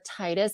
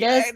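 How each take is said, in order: First: The first syllable rhymes with 'tide'. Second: The first syllable sounds like 'tee'. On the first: "I prefer Titus because you know, like the tide" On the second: "it's like tedious"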